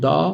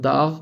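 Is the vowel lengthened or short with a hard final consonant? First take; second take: lengthened; short. First: The vowel is lengthened with no hard g. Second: The vowel is short and a hard g ends it. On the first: The speaker calls it wrong. "o ünlüyü uzatıyormuş gibi oluyor Türkçede" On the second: The speaker calls it right. "G harfi G olarak duyuluyor"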